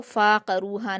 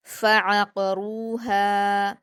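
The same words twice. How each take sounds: First: फ़ाक़रूहा with one long फ़ा and no ain; mispronounced long fa. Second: फ़अक़रूहा recited slowly, short फ़, then ain from the throat; separate throaty ain. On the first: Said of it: "फ़ा पर अलिफ मद्दा की आवाज़ आ रही है". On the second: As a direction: split फ़ from the ain, hold रू and हा in फ़अक़रूहा. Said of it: "हलक से अदा करेंगे". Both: Shown as a demonstration.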